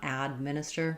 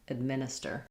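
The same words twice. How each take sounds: First: The first vowel is a full, clear sound. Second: The first vowel is a short, reduced sound. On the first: The speaker calls it wrong. "You don't want" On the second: The speaker calls it right. "more ed"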